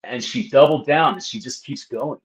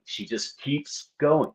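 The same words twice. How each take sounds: First: Said in the usual way. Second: Said slowly and softly, exasperated; slow and quiet. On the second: Real, not acted.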